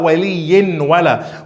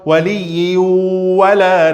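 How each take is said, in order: First: The n is pronounced clearly before the w. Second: The n merges into the w with nasalization. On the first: The speaker calls it wrong. "não fala waliyin wala" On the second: The speaker calls it right. "esse tanwin não vai ser pronunciado"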